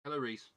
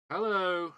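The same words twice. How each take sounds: First: Said in the usual way. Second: A big, high, loud call of hello; cheery shouted hello to a newcomer. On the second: Real, not acted. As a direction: sing out the greeting across the room. Greeting a chat member.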